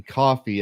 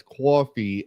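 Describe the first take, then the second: First: Said in the usual way. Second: Coffee said as "kwoffee"; mispronounced coffee. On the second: Retold or imitated. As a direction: slip a w in after the k of coffee. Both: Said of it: "mispronouncing coffee as coffee".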